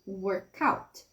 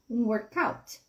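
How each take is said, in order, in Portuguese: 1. As duas palavras são ditas juntas. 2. As duas palavras são ditas juntas.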